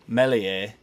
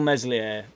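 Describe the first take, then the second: First: The name is said without an S sound. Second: The name is said with an S sound. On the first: "saying Melier and not pronouncing the S" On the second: "stay true to yourself"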